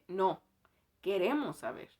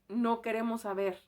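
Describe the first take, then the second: First: It is said with a pause after 'no'. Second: It is said without a pause after 'no'.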